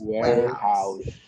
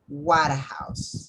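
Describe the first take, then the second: First: It is pronounced in its natural spoken form. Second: It is pronounced the way it is spelled. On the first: The speaker calls it right. "So it's warehouse" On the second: The speaker calls it wrong. "No quiero escuchar que digan warehouse. Porque así se lee, pero no se dice así"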